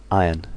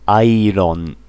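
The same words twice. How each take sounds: First: Said in the usual way. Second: "Iron" with a tapped r and a full o; "Iron" said the Japanese way, airon; "Iron" as a katakana word; Japanese loanword style. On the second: Shown as a demonstration. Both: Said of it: "Japanese English".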